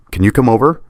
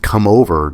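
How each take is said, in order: First: "come over" pushed high and a touch louder, rising on "over"; leaning on come over. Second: "come over" lightly stressed, falling on "over"; retelling the emphasis. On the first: A narrator's reading. Friend urging him to her apartment, stressing "come over". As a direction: press "come over" with a little too much urgency. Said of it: "the way she emphasized "come over". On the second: Retold or imitated. Narrator recalling her push, mildly stressing "come over". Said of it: "the way she emphasized".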